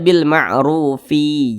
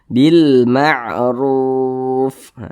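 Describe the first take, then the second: First: The word ends with an added vowel sound. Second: The word ends on a stopped final consonant. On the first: The speaker calls it wrong. "Jangan dibaca bil ma'rufi, jangan" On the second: The speaker calls it right. "Ini kita baca bil ma'ruf"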